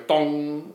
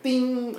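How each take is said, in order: First: Resonant "dong", held like a string; long string dong. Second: High, ringing guitar-string ding; light, high-pitched "ding". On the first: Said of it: "when the string's further away". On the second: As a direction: imitate a short string's high note. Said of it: "at real light". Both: Shown as a demonstration.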